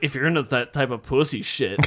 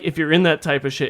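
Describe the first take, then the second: First: It is said in a mocking, condescending tone. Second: It is said in a plain, neutral tone.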